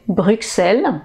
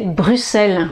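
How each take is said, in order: First: The middle consonant sounds like ks. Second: The middle consonant sounds like a plain s. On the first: "on prononce le X normalement" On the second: "comme si vous aviez deux S"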